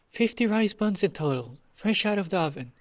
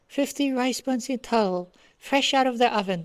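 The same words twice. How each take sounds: First: It is said in a normal voice. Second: It is said in a high-pitched voice.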